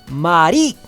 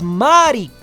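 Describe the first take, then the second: First: The stress is on the second syllable. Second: The stress is on the first syllable. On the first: "en español el acento está en ri" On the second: "en Italia el acento cambia y está en ma"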